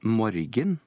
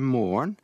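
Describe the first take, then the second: First: The word is said as spelled, with g. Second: The word is said without the g. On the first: This is how the word is written. The speaker calls it wrong. "Det ble jo skrevet morgen. Det sier vi altså ikke" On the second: This is how the word is actually said. The speaker calls it right. "Vi sier morgen"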